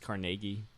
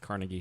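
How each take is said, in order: First: Carnegie is said the local way. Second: Carnegie is said the outsider way. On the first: The speaker calls it right. "according to the natives" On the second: The speaker calls it wrong. "They also mispronounce"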